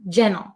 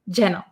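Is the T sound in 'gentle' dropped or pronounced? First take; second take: dropped; dropped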